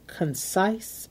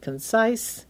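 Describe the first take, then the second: First: Concise said with a rising stress on the end. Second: Said in the usual way. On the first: Shown as a demonstration. Podcast host to listeners, stressing concise. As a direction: lean into the word concise so it stands out. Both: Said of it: "emphasis on the word concise".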